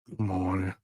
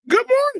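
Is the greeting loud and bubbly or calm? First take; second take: calm; loud and bubbly. First: It is said in a calm, ordinary way. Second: It is said loudly and bubbly.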